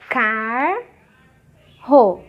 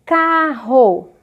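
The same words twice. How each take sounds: First: "carro" split as "car", long pause, "ro"; separação silábica. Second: Said in the usual way. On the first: Shown as a demonstration. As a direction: hold the first syllable of "carro", pause, then the second. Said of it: "A separação". ("carro" separado em car e ro, devagar) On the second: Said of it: "Olha aqui o exemplo que eu dei".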